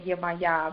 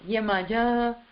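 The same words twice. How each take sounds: First: The name is said in a non-Brazilian way. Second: The name is said in a Brazilian way. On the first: "I sound silly when I say" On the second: "in Brazil it's"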